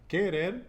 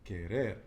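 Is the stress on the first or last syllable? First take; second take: first; last. First: The stress is on the first syllable. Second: The stress is on the last syllable. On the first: The speaker calls it wrong. "it's not querer" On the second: The speaker calls it right. "In the end"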